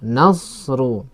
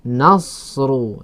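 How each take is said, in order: First: The s sound is heavy and thick. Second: The s sound is heavy and thick.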